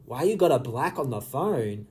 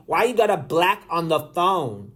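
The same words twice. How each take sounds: First: Softer, lower puzzled repeat; puzzled rereading. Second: Said in the usual way. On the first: Real, not acted. Reader going back over a confusing message, quietly puzzled. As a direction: mull the question over, dropping in pitch. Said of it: "I am so confused". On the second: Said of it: "a message from Lemmy saying".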